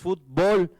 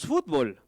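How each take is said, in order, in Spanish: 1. La tónica está en la última sílaba. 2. La tónica está en la primera sílaba. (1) "decimos fútbol" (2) "en México no decimos fútbol"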